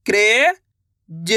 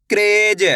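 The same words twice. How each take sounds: First: Word stretched very slowly; slow drawn-out. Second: Said in the usual way. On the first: Shown as a demonstration. Teacher stretching the word for pupils, very slow. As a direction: draw each sound out for the child.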